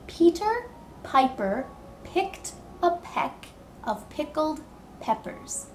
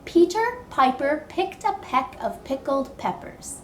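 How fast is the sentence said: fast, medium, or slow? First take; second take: slow; medium. First: The sentence is spoken slowly and carefully. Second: The sentence is spoken at a moderate speed. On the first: "Can you try saying it with me slowly?" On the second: "but a little bit faster"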